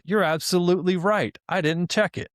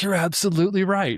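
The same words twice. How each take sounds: First: Imitating an eager, overly agreeable chatbot, pitched higher; chirpy fake-apologetic assistant; sycophantic AI. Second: Mock chatbot voice, pitched higher; sycophantic AI catchphrase. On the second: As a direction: gush the stock agreement like Claude. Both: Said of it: "it's always saying".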